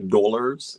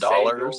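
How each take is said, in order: First: It is drawn out with extra emphasis. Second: It is said in a plain, ordinary way.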